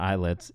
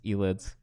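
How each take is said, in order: First: The name begins with an 'eye' sound. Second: The name begins with an 'eh' sound. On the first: The speaker calls it wrong. "Not eyelids" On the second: The speaker calls it right.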